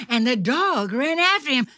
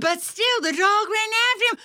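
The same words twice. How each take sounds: First: Fast, high, loud storytelling; chase narration. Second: Very high, double-speed storytelling; frantic chase narration. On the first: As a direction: race along with the chasing dog. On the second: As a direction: gabble breathlessly as the chase peaks. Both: A narrator's reading.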